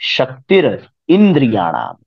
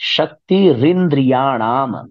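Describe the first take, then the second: First: The words are split with a break between. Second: The words run together with no break. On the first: "इसको ऐसे भी पढ़ा जाए तो कितना आनंद आता है" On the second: "लिखा है शक्ति रिंद्रियाणाम"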